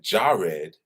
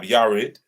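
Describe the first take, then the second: First: The name begins with a J sound. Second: The name begins with a Y sound. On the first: The speaker calls it wrong. "if you call it Jared" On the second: The speaker calls it right. "there wasn't a J there, there was a Y there"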